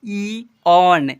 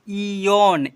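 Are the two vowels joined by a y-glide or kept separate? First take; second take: separate; glide. First: The vowels are kept separate, without a glide. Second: The vowels are joined by a y-glide. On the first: The speaker calls it right. "ई ऑन ऐसे पढ़ते हैं" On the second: The speaker calls it wrong. "इयोन नहीं"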